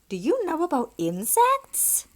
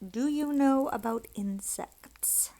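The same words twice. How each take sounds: First: It is said as a question, rising. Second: It is read flatly, not as a question. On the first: The speaker calls it right. "That's how it should be said, right?" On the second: The speaker calls it wrong. "Although that's a question, isn't it?"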